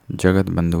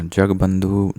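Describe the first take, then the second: First: जगत बंधु said as "jagat bandhu"; full "jagat" before bandhu in जगत बंधु; correct full jagat. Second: जगबंधु said as "jagbandhu"; no "at" inside जगबंधु; wrong, missing t. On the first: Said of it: "होता है". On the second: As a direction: run g straight into b in जगबंधु. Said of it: "नहीं होता है". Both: Shown as a demonstration.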